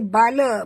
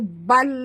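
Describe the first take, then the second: First: The word ends with an added vowel. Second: The word ends on the consonant. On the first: The speaker calls it wrong. "jangan baca bala" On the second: The speaker calls it right. "baca bal"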